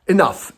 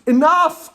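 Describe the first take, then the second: First: Said in the usual way. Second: Enough! jumps high in sudden exasperation; Enough! as a sharp, high fed-up cry; exasperated outburst. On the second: Real, not acted.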